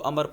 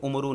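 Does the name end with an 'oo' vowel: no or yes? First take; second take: no; yes. First: It ends on the consonant r, no final vowel. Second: It ends with an added 'oo' vowel after r. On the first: The speaker calls it right. "तो इसको अमर पढ़ना है" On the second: The speaker calls it wrong. "उमरू नहीं पढ़ते, उमरू जो है ये गलत है"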